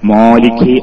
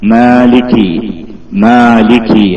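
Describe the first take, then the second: First: The first syllable sounds heavy and thick. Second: The first syllable sounds light and thin. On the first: The speaker calls it wrong. "മാലികി ആവാതിരിക്കുക" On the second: The speaker calls it right. "ആ ഉയർന്ന ശബ്ദം വന്നില്ല, തഫ്ഹീമിന്റെ അല്പം പോലും വന്നില്ല"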